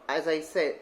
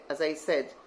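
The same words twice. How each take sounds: The two takes are said the same way.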